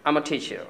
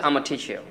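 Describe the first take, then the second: No difference in how they are said.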